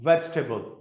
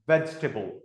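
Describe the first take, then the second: The two takes are said the same way.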